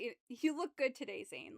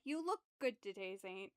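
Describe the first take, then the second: First: It is said in a suggestive, flirty tone. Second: It is said in a plain, flat tone.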